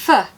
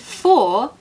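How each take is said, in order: First: The word has a weak schwa vowel. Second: The word has a full, strong vowel.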